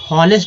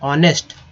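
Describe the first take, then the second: First: The word begins with an h sound. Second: The word begins directly with a vowel. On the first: The speaker calls it wrong. "हॉनेस्ट नहीं बोलेंगे क्योंकि H जो है silent word है" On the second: The speaker calls it right. "तो ऑनेस्ट"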